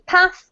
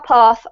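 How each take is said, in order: First: It is said in a northern English accent. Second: It is said in a southern English accent.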